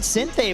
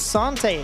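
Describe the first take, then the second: First: The first syllable sounds like 'sin'. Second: The first syllable sounds like 'san'. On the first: This is how the English community has always said it. The speaker calls it wrong. "In the English community, we've always pronounced it Sinte" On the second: This is how the player himself says it. The speaker calls it right. "but we've spoke to him, it is Sante"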